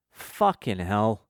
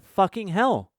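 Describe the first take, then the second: First: Slow, drawn-out muttered curse of dismay; sighing exasperation. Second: High-pitched imitation of a small child; innocent little kid. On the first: Retold or imitated. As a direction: imitate a small kid swearing after a sigh. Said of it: "then sighs, like". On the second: Acts out kid repeating swear.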